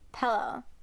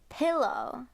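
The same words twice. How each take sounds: First: The first vowel sounds like 'eh'. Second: The first vowel sounds like 'ih'. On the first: This is how the speaker's family says it. "we've been saying like a little bit of the eh" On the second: This is how people outside the family say it. "everyone else who's not in our family pronounces it"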